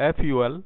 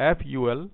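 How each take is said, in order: The two takes are said the same way.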